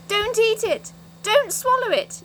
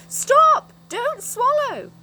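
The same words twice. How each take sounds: First: High, loud alarmed yell; a frantic shout of warning; sudden yell. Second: Very high, very loud, slowed yell; a frantic scream, then drawn-out words. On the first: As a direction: yell it out to stop her eating. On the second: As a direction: scream it to stop her. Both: Acted. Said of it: "yelled Moonface suddenly".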